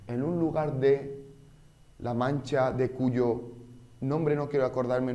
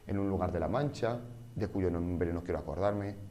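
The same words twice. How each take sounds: First: Pauses break the phrase at unnatural points. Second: The phrase flows with pauses at natural points. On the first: The speaker calls it wrong. "Esta interrupción, este fraseo no tiene sentido" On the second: The speaker calls it right. "es mucho más normal"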